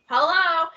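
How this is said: It is said in a peppy, upbeat voice.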